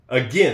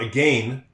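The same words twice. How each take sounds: First: The second syllable sounds like 'gin'. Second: The second syllable sounds like 'gain'. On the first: The speaker calls it right. "you'd think that it would just be A G I N, because there's you don't really hear this A here" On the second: The speaker calls it wrong. "It's not again"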